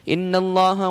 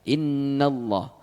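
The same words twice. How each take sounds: First: The nasal sound is clipped short and rushed. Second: The nasal sound is held for a longer beat. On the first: The speaker calls it wrong. "kalau kita kecepatan baca ... sudah meninggalkan gunnah dan mengurangi mat" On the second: The speaker calls it right. "minimal dua harakat kita tahan"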